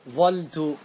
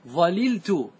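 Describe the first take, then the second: First: One l is dropped and the first vowel is a. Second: Both l sounds are kept, giving zalaltu. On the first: "احذف اللام واترك الفاء كما هي على حركتها... مفتوحة" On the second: "هذا يسمى بلغة الإتمام، تفك الإدغام وتأتي باللامين"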